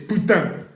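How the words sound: It is said with a Normandy accent.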